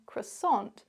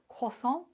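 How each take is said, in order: First: It is said with an English pronunciation. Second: It is said with a French pronunciation. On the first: "notice how I said croissant" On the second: "in French it sounds like croissant"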